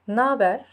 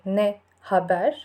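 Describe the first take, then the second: First: It is contracted into one short word. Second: It is said as two full separate words. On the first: The speaker calls it right. "but we always say naber" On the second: The speaker calls it wrong. "We never say ne haber"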